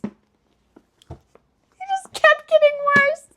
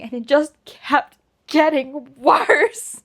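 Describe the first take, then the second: First: High, slow drawn-out whine; mock despair, high and drawn out; whiny lament. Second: Said in the usual way. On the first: Real, not acted. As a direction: stretch it into a wailing lament.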